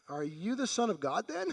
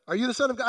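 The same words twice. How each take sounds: First: Quiet question rising on "then"; a hushed, uncertain "Are you the Son of God then?"; tentative asking take. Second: "Son" stressed, falling at the end; a pressing "Are you the Son of God?" that falls; blunt demanding take. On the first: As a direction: ask it softly, lifting at "then". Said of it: "I don't know how they said it". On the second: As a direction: demand it flatly, landing on "Son". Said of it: "the intensity with which they said it". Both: Shown as a demonstration.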